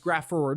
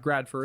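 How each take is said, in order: First: The name is said without a d sound. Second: The name is said with a d sound. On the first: The speaker calls it right. "It's Grafford" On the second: The speaker calls it wrong. "not Gradford. I don't know why I'm adding a D in there"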